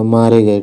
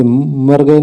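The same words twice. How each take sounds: First: मारे गए with long aa and -e; correct form. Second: मर गए with short a in मर; wrong form. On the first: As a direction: say मारे गए as "maare gaye", settling lower. (मारे गए में आ लंबा, सुर गिरता हुआ) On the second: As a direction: say मर गए as "mar gaye", to be rejected. (मर गए में मर का अ छोटा) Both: Shown as a demonstration. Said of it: "मर गए नहीं होगा".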